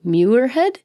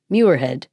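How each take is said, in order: First: Muirhead said as "Myure-head" with a questioning rise; checking how to say "Muirhead"; questioning pronunciation. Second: Muirhead said as "Myure-head", falling and sure; confirming the name "Muirhead" with a fall; settled pronunciation. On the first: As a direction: try "Muirhead" slowly, unsure, rising at the end. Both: Shown as a demonstration.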